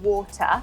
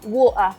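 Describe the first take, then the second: First: The T in the middle is clearly pronounced. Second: The T is replaced by a glottal stop. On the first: This is the standard British pronunciation. "we would pronounce the T" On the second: This is how someone from South London would say it. "you would glottal"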